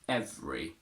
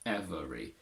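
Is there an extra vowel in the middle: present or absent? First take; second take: absent; present. First: The middle vowel is dropped, two syllables. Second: The middle vowel is kept, three syllables. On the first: The speaker calls it right. "We only say every" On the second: The speaker calls it wrong. "not every"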